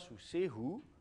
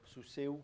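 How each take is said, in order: First: The word ends in a breathy h then u. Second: The word ends in e then u, no h. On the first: "soit sous sehu" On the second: "on souffle presque plus, à la fin, il finit par disparaître"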